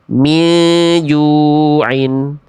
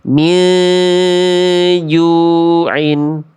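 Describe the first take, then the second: First: The nasal sound is rushed and cut short. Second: The nasal sound is held for two beats. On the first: The speaker calls it wrong. "Yang B kurang tepat karena tergesa-gesa" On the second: The speaker calls it right. "Semestinya min ju'in. Tahan dulu dua harokat"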